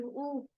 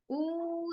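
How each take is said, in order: First: "ऊ" as a short, soft vowel. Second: "ऊ" held long, higher and softer; long vowel. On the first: Teacher showing the short sound, brief soft "ऊ". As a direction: cut "ऊ" short, softly. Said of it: "ये short sound है". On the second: Teacher showing the long sound, "ऊ" drawn out. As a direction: stretch "ऊ" out as one steady vowel. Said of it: "वो long sound होती है". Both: Shown as a demonstration.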